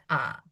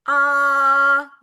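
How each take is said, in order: First: Ah low and dipping, softer; Ah as a low falling-rising Mandarin tone; tone three. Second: Ah held high and level, first Mandarin tone; tone one. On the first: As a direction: drop Ah down low. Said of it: "Rendah dia". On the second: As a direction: sing Ah high and flat, steady pitch. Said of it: "Nada datar tinggi ya". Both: Shown as a demonstration.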